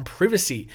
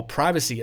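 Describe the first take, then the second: First: "privacy" read as written, with a long "eye": PRY-vacy; reading pronunciation. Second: "privacy" with a short i: PRIV-a-see; normal pronunciation. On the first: Australian reads an American article's "privacy", PRY-vacy. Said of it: "or privacy as a normal person would say it". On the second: Australian corrects the article's "privacy" to PRIV-a-see. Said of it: "as a normal person would say it". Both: Shown as a demonstration.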